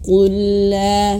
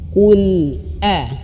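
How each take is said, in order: First: The two words run together with an l. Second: The sound breaks between the two words. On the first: The speaker calls it wrong. "jangan qul la" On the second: The speaker calls it right. "harus terputus suara"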